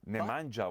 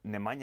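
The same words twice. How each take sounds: First: The name is said with an English 'j' sound. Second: The name is said without an English 'j' sound. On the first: The speaker calls it wrong. "Nemanja was wrong" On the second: The speaker calls it right. "Nemanja is right"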